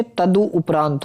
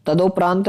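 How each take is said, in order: First: तदु उपरांत with u after d; corrected pronunciation. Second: तदोपरांत with a merged long o; wrong pronunciation. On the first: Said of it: "होता है". (तदु उपरांत में 'दु' बोलें) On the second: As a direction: say तदोपरांत as ta-do-praant. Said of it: "नहीं होता". (तदोपरांत में 'दो' बोलें) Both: Shown as a demonstration.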